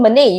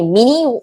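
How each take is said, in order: First: The name ends with an 'ay' sound. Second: The name ends with an 'ee' sound. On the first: The speaker calls it right. "You pronounce it as M E N A Y" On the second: The speaker calls it wrong. "what is this M E N E? Mini?"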